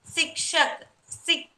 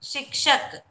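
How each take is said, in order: First: Sikshak said with an s at the start instead of sh; wrong sound. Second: Shikshak said with sh at the start; corrected sound. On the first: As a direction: slip and say Sik at the start. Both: Shown as a demonstration. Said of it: "Shik, sorry".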